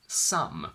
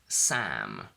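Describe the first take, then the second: First: The vowel sounds like the one in sum. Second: The vowel sounds like the one in cat. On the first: The speaker calls it wrong. "which actually means S O M E or S U M" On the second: The speaker calls it right. "my name is Sam"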